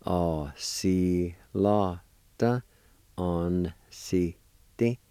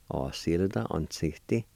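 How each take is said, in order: First: "Á sílada an síti" very slow, every syllable stretched; slow syllable sounding-out. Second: Said in the usual way. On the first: Shown as a demonstration. Teacher joining both parts for learners, slowly syllable by syllable. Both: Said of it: "And together".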